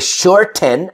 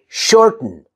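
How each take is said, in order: First: The vowel between T and N is full. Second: The vowel between T and N is reduced. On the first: The speaker calls it wrong. "I don't say shorten" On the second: The speaker calls it right. "I say shorten"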